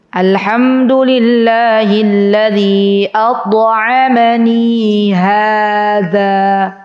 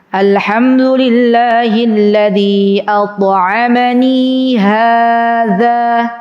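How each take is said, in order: No difference in how they are said.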